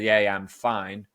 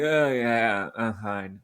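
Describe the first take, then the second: First: It sounds genuinely fine and convincing. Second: It sounds doubtful and not really fine.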